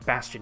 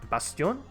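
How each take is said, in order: First: The word is pronounced the English way. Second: The word is pronounced the French way. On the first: "Bastion in English" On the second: "but Bastion in uh, in French"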